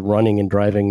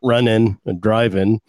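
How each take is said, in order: First: The words are said in a standard accent. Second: The words are said in a Maine accent. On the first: The speaker calls it right. "I can still talk and pronounce my R's for the most part" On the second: The speaker calls it wrong.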